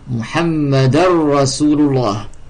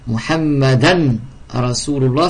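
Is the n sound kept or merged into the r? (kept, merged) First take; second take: merged; kept. First: The n sound merges into a doubled r. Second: The n sound is pronounced before the r.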